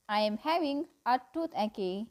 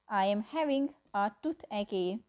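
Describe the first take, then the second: No difference in how they are said.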